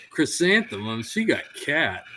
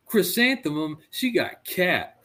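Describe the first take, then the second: First: Put-on a lighter echo of the indignant kid voice; retelling the kid's gripe, less hammed-up; kid protest, lighter. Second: Put-on high, slow, outraged kid voice; mock kid complaining the test was unfair; indignant kid protest. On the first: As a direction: toss the kid's complaint off quickly. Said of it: "It's like". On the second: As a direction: stretch it out like a wronged little boy. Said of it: "and he goes".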